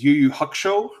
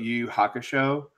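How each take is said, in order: First: The u vowel is devoiced. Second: The u vowel is fully voiced.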